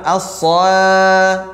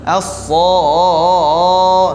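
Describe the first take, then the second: First: The vowel after s is light and thin. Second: The vowel after s is dark and thick. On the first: The speaker calls it wrong. "Jangan as-sa, enggak mungkin" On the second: The speaker calls it right. "nah, dia juga tebal"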